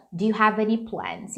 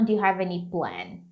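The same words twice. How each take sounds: First: Said in the usual way. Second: "plan" with no final S; unnatural singular. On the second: Shown as a demonstration. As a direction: say "plan" bare, dropping the plural S, voice falling. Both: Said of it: "Não, não fica natural".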